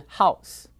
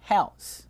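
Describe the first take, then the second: First: House with a Mandarin-like "ao" vowel; wrong pronunciation. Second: House drawn out with "eh-ow" vowel; correct pronunciation. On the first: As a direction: say house as Mandarin hao plus s. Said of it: "不是house". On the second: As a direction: stretch house slowly as h-eh-ow-s. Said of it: "房子叫做house". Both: Shown as a demonstration.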